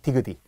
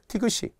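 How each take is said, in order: First: The final consonant links over as a d sound. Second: The final consonant links over as an s sound. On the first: The speaker calls it wrong. "디귿이 막 이런 느낌이잖아요" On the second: The speaker calls it right. "시옷이 갑툭 튀어나온 거예요"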